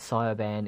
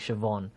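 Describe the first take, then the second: First: The name is read as its spelling suggests. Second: The name has its traditional Irish pronunciation. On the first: The speaker calls it wrong. "what you said" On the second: The speaker calls it right. "is actually Siobhan"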